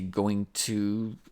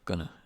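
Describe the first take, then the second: First: Both words are said fully and separately. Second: The two words blend into one reduced word. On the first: "we don't say going to" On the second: "When we speak quickly, we put the two together"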